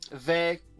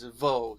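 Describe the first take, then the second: First: The word ends in an 'ay' vowel. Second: The word ends in an 'o' vowel. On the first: This is the form as written. "ve will often be pronounced as vo" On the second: This is the form often heard in speech. "will often be pronounced as vo"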